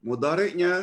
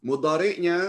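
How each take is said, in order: Both takes have the same delivery.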